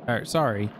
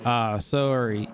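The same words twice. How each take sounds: First: Said in the usual way. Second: Drawn-out Canadian "sorry"; attempted Canadian accent on "sorry". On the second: Shown as a demonstration. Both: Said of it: "Tried to do a Canadian accent".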